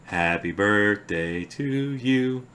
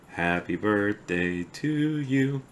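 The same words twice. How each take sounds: The two takes are said the same way.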